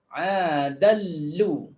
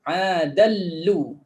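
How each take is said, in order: The two takes are said the same way.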